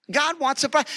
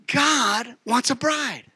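First: Higher, with the weight on "bride"; stress on bride. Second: Slow, drawn-out emphasis on God; slow emphatic. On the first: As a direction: hit the word bride. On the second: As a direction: lean hard and slow on God. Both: Shown as a demonstration.

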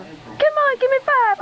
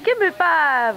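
First: Much higher, coaxing a cat; squeaky coaxing. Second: Said in the usual way. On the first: Real, not acted. Owner begging her cat for a high five, squeaky. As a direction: jump up into a squeaky plea.

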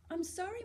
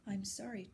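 First: Put-on high girl's apology. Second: I'm sorry low and much softer; low soft apology. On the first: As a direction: say I'm sorry small and high. Girl apologizing to artist. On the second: Acted. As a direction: say I'm sorry quietly, old man's regret. Artist apologizing softly.

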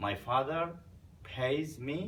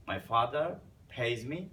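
No difference in how they are said.

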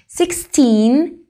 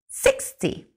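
First: Put-on "Sixteen" louder, with a rising, long "teen"; teacher contrasting "Sixteen" with "sixty". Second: "sixty" soft and half whispered, with a short, dry "ty"; teacher contrasting "sixty" with "Sixteen". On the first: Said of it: "Fijaos en la diferencia". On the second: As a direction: breathe a quick, dry "sixty". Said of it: "Es más seco, es más rápido". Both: Shown as a demonstration.

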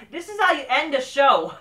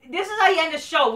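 First: Said in the usual way. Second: Ranting at AEW, repeating it with more force; emphatic repeat, higher. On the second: Real, not acted. Venting about the show's ending, emphatic repeat. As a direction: spell it out again, harder.

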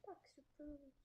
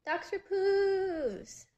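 First: Said in the usual way. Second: Long, high, loud drawn-out call of the name; hollered greeting, slow and loud. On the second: Acted. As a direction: stretch it out high and loud, like calling across a room. Calling out a name.

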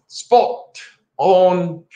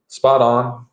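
First: High, drawn-out Australian-English attempt; playful try at an Australian English accent. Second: Said in the usual way. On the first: Shown as a demonstration. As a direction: stretch out both words in a put-on Australian English accent. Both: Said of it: "working on my Australian English thing".

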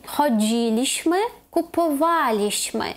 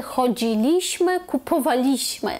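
First: ChoDZIliśmy, kupoWAliśmy, slowly; third-from-last stress. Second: ChodziLIśmy, kupowaLIśmy, slowly; wrong penultimate stress. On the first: Teacher modelling the correct past tense, stress third from end. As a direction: stretch DZI and WA in "Chodziliśmy, kupowaliśmy". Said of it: "не на другий склад з кінця". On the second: Teacher showing the theoretical but wrong form, stress on LI. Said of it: "але це неправильно". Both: Shown as a demonstration.

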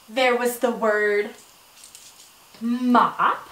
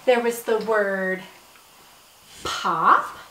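First: "mop" set apart after a pause and landed; stress on mop. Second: "pop" set apart after a pause and landed low; stress on pop. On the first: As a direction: spotlight the rhyme word "mop". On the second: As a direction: spotlight the rhyme word "pop". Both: Shown as a demonstration. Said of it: "words that rhyme".

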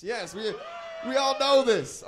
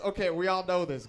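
First: Big high shout; rally the room, much higher and louder; shouting to the crowd. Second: Said in the usual way. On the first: Real, not acted. Hyping the crowd about Payless.

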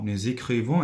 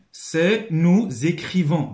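First: Said in the usual way. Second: "C'est nous écrivons" raised, loud and slow; emphatic dictation reading. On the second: Shown as a demonstration. Teacher reads the item to pupils, slow and emphatic.

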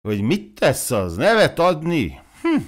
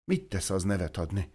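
First: Louder, swooping repeat of a question; leading, self-important question; rhetorical echo. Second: Soft, hesitant asking; small, softly spoken question; involuntary question. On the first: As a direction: throw the question back, rising high at the end. Klivényi echoes her timid question. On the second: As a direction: let the question slip out quietly. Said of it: "szinte akaratlanul kérdé". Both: Acted.

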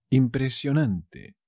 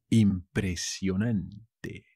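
First: Said in the usual way. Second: "Impresionante" slow, last syllable set apart; teacher's slow, careful "Impresionante"; slow demonstration. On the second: Shown as a demonstration. New word shown slowly to learners.

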